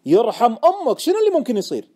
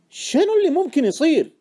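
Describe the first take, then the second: First: Loud, high, pleading demand; very insistent. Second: High, loud demand; insistent question. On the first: Friend begging the trader to explain, forcefully insistent. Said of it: "سألني مرة ثانية بإصرار أكبر". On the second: Friend pressing the trader about his hunch, insistent. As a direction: press hard for an answer. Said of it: "سألني صاحبي بإصرار". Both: Acted.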